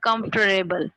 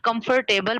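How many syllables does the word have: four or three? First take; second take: three; four. First: The word is said with three syllables. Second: The word is said with four full syllables. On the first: The speaker calls it right. "but it's comfortable. It's three syllable word" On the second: The speaker calls it wrong. "You people pronounce it comfortable. It's not comfortable"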